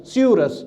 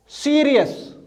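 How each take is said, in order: First: सियूरस said see-oo-rus, three clear syllables; corrected reading. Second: सीरियस read as see-ree-yus, like the star Sirius; first wrong reading. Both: Shown as a demonstration. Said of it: "सियूरस ऐसे पढ़िए आप".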